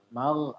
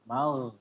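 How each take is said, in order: No difference in how they are said.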